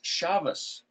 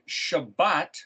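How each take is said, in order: First: The word is said with v and s sounds. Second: The word is said with b and t sounds. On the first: "other people call it shavas, as if it was a V, S-H-V-S" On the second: "If you have the word Shabbat"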